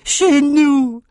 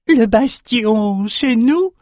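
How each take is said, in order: First: Much higher, strange voice, falling in glee; excited runt exclaiming. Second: Much higher, slow, strange voice rising to a question; excited runt question. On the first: The runt runs to Bannon to repeat it, high and gleeful. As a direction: announce it with triumph. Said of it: "et répéta". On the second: The runt shaman echoes the king, high and questioning. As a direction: squeak it out in disbelief, asking. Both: A narrator's reading.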